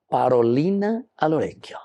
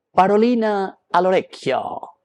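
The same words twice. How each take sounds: First: Said in the usual way. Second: Parolina al orecchio flung out high and loud; emphatic call-out. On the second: Shown as a demonstration. Priest to congregation, proclaiming the saying high and loud. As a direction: belt out parolina al orecchio like a catchphrase. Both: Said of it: "palabra al oído".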